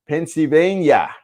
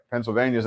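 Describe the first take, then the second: First: Higher, drawn-out pretend Pennsylvania accent; mock Pennsylvania accent. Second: Said in the usual way. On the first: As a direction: stretch it out in a hammed-up Pennsylvania accent. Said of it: "Is that the accent?".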